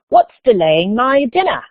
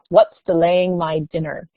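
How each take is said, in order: First: It is said in a put-on English accent. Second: It is said in the speaker's usual accent.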